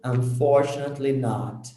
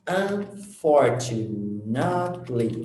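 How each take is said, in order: First: Said in the usual way. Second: "Unfortunately" drawn out syllable by syllable; slow pronunciation demo. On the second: Shown as a demonstration. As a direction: slowly sound out every part of "Unfortunately". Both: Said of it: "that's a long word".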